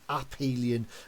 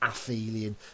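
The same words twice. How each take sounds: First: The word is pronounced in a Greek-style way. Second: The word is pronounced in an anglicised way. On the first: The speaker calls it right. "notice the pronunciation there" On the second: The speaker calls it wrong. "don't try and anglicise it and say"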